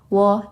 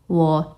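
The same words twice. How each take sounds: First: The syllable is light with no marked pitch. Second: The pitch dips down then rises. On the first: "Dia itu lebih gak ada nada gitu" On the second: "Dia itu lebih turun naik nadanya"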